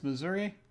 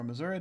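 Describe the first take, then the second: First: "Missouri" pronounced muh-ZUR-ee; Missouri ending in -ee. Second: "Missouri" pronounced muh-ZUR-uh; Missouri ending in -uh. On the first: Player reading the ticket route, Missouri ending in "ee". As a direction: say Missouri with a final "ee", pitched up. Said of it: "or Missouri, depending on which side". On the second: Player offering the other riverside version, Missouri ending in "uh". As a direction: say Missouri with a final "uh". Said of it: "depending on which side of the river". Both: Shown as a demonstration.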